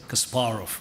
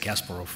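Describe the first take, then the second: First: The name has a Russian pronunciation. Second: The name has an American pronunciation. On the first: "which is a Russian pronunciation" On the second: "Americans always say"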